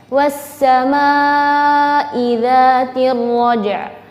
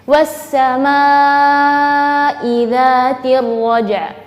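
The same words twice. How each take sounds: The two takes are said the same way.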